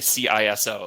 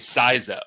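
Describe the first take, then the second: First: Each letter is said separately. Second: It is said as a single word. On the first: "they just will spell it out" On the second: "in other geographies, like if you're in Australia"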